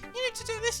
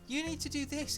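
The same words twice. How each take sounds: First: It is said in a put-on character voice. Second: It is said in the speaker's normal voice.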